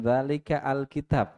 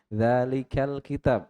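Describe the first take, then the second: First: The article is separated with its own glottal start. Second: The article is joined smoothly onto the previous word. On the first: The speaker calls it wrong. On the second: The speaker calls it right. "kita baca Quran kan"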